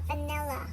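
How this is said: It is said in an American accent.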